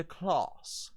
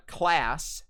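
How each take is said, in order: First: "class" with a broad "ah", like "clahss"; long open A in "class"; High British pronunciation. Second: "class" with the A of "cat"; American short A in "class"; American pronunciation. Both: Shown as a demonstration. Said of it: "class will turn into class".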